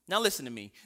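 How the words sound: It is said in a hard, tough manner. The advice is given as a harsh command. The speaker calls it wrong.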